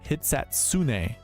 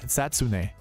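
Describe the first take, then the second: First: The name is said at an ordinary, careful pace. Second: The name is said very quickly, run together.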